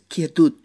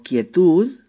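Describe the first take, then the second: First: "quietud" ending in a T sound, "quietut"; final D of "quietud" voiced as T; Catalan quietud. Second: Said in the usual way. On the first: Shown as a demonstration. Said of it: "pero en catalán es quietud". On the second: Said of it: "se escribe igual".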